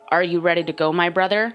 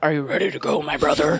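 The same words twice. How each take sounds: First: It is said in a normal speaking voice. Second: It is said in a put-on deep voice.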